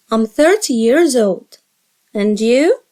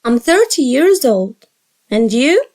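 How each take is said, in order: Both takes have the same delivery.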